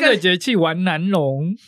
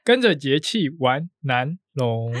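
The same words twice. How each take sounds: First: It is said quickly. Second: It is said at a normal pace.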